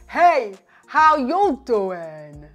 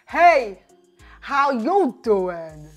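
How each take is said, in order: First: It is said with a low, deep voice. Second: It is said with a low, deep voice.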